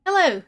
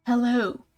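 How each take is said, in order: First: Mildly sleepy hello, pitched higher; first attempt at a drowsy greeting. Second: Drawn-out drowsy hello; sleepy. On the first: Woken ghoul greeting the visitor, a touch sleepy. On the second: Acted. Woken ghoul greeting the visitor, sleepy. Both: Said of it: "he says sleepily".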